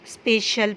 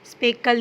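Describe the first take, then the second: First: The middle consonant is an 'sh' sound. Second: The middle consonant is a 'k' sound. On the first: The speaker calls it right. "स्पेशल पढ़ते हैं" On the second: The speaker calls it wrong. "स्पेकल नहीं पढ़ते"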